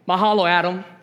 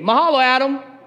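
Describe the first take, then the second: First: It is said plainly, without much feeling. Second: It is said with strong, heartfelt conviction.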